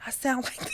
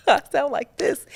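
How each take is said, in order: First: Said in the usual way. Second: Higher and louder, a lightly put-on grandfather voice; her grandfather's voice. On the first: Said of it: "when I get to talking". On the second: Shown as a demonstration. Showing viewers how the grandfather talks through her, mock voice. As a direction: show off the old man coming through. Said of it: "when I get to talking, I sound like".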